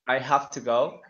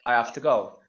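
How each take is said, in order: First: The h in 'have' is clearly pronounced. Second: The h in 'have' is dropped. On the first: "instead of uh, saying to somebody" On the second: "they say"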